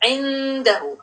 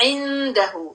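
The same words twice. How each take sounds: The two takes are said the same way.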